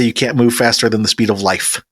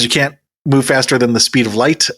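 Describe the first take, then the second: First: "life" brought down as the punchline; fall on LIFE. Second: "light" lifted at the end, left open for the twist; rise on LIGHT. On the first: Podcaster pitching his own twist on Einstein, falling on "life". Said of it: "I say". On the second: Podcaster quoting Einstein to set up his own twist, rise on "light". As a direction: set up the quote with "light" rising. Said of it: "Albert Einstein says". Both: Shown as a demonstration.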